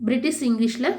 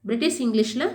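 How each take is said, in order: Both takes have the same delivery.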